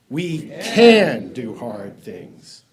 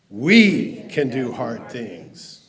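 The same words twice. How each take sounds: First: The stress is on "can". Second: The stress is on "we".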